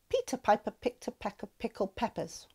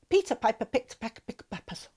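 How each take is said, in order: First: It is said at a faster pace. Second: It is said very fast.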